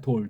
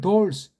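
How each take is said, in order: First: The word ends with an L sound. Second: The word ends with an added S sound. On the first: The speaker calls it wrong. "오늘날 돌 그러잖아요" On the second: The speaker calls it right. "돌스라고 이걸 읽어야 되는데"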